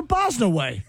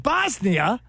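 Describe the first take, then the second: First: BOSNAWAY ending like "away"; joke mispronunciation. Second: BOSNIA slow, ending "nee-uh". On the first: Co-host joking about the pronunciation, Bosnia turned into Bosnaway. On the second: Co-host posing a joke choice, slow Bosnia ending "nee-uh". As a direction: say Bosnia slowly with a questioning rise. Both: Shown as a demonstration. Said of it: "Is it Bosnia or Bosnaway?".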